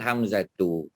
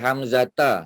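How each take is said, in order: First: The word ends with the sound u. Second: The word ends with the sound a. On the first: The speaker calls it right. "Yang betul" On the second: The speaker calls it wrong.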